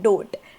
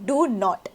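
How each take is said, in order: First: It is said as one short contracted word. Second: It is said as two separate full words. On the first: "मी काय म्हणते? डोंट" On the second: "डू नॉटच्या ऐवजी"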